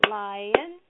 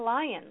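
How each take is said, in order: First: "lion" drawn into two beats, LI - ON; syllable by syllable. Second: Said in the usual way. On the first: Shown as a demonstration. Teacher has the class clap, "lion" in two even beats. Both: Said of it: "Let's clap lion".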